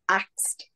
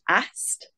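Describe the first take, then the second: First: The k sound comes before the s sound. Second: The s sound comes before the k sound. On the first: The speaker calls it wrong. "saying axed" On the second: The speaker calls it right. "Instead of saying asked"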